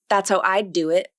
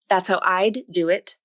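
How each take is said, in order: First: The D in I'd has no audible release. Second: The D in I'd has an audible release. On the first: The speaker calls it right. "the same sentence with an unreleased D consonant" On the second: The speaker calls it wrong. "That's a released D consonant"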